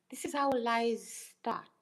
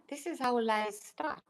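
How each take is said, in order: First: This is how lies start, slowed and weighted; slow and deliberate. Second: Unvoiced whisper of this is how lies start. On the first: Vlogger to a doubting viewer, slow and pointed. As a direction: lay it out slowly, word by word. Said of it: "This is how lies start. (whispered take)". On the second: Vlogger to her viewers, a conspiratorial whisper. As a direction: breathe it out as a secret. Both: Shown as a demonstration.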